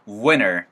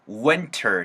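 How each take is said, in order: First: The T sound after the N is dropped. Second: The T sound after the N is pronounced. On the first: "T 사운드를 없어지면서 winter 하는 사람들도 있을 거예요" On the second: "winter 사운드가 만들어질 수도 있고요"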